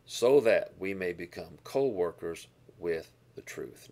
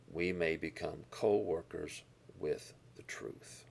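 First: Louder, firm full-voiced "So that we may become co-workers with the truth"; proclaimed verse. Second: Slow whisper of "we may become co-workers with the truth"; whispered verse. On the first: Pastor repeating the key verse to his congregation, louder proclamation. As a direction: declare the verse out to the room. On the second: Pastor whispering the verse's promise to his listeners. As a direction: breathe the words as a hushed secret. Quoting verse as key point. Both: Real, not acted.

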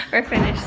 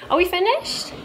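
First: Said in the usual way. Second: Asked with a high rising tune; "finished?" rising high at the end, asking; rising question. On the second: Real, not acted. Asking crew if filming is done.

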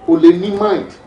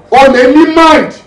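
First: Said in the usual way. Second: High, loud burst of disbelief; outraged exclamation. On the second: Acted. Squad leader on a member's killing, outraged exclamation. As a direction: thunder it at the squad, pitched up.

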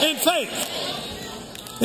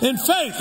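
First: Breathy forced whisper of In faith, trailing off; whispered emphasis. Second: Said in the usual way. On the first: Shown as a demonstration. Preacher to congregation, breathy whispered "In faith". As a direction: hiss "In faith" like a secret the whole room must hear. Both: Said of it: "preacher repeating answer to congregation".

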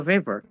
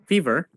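First: "fever" with an AY vowel, FAY-ver; fever mispronounced. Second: "fever" with an EE vowel, FEE-ver; fever corrected. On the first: Co-streamer asking about illness, "fever" said FAY-ver. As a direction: say "fever" to rhyme with "favor". First take, mispronounced then corrected. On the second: Co-streamer fixing own word, "fever" said FEE-ver. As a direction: say "fever" with a long EE. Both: Real, not acted.

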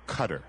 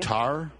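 First: "Qatar" as CUT-er; stress on first syllable. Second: "Qatar" as kuh-TAR; stress on second syllable. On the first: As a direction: say "Qatar" like the word cutter. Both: Shown as a demonstration. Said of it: "whether or not the pronunciation".

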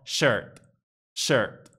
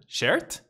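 First: "Shirt" with a throaty schwa before R, falling; correct schwa. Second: "Shirt" with a clear E, questioning rise; wrong "shert". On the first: Teacher shows the right version, throaty schwa in shirt. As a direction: say "Shirt" low, vowel hidden in the R. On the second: Teacher shows learners the mistake, "shert" with a front E. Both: Shown as a demonstration.

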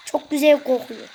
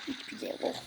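First: Said in the usual way. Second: "Hiç güzel kokuyor" whispered far softer, no voice, "Hiç" leaned on; hushed, voiceless aside. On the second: Shown as a demonstration. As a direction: breathe it out like a secret correction.

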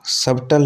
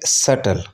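First: सब्टल said subtle with a b; सब्टल with b before the t; wrong b sounded. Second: सटल said suttle, no b; सटल with no b before t; silent b. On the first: Teacher shows the wrong सब्टल with a b. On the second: Teacher shows सटल said suttle. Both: Shown as a demonstration. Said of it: "सब्टल नहीं होता".

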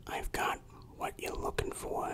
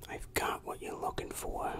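The two takes are said the same way.

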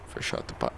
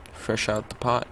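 First: Teasing whisper, voiceless and soft; playful hushed repeat; mock whisper. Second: Said in the usual way. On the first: Shown as a demonstration. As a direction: whisper it like a joke. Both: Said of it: "I'm kidding".

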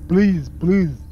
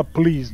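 First: "please, please" with a slushy sh in place of the s. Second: Said in the usual way. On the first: Retold or imitated. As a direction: lisp the s in "please" into a wet sh. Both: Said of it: "Ele fala please".

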